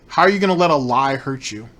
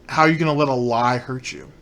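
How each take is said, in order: Both takes have the same delivery.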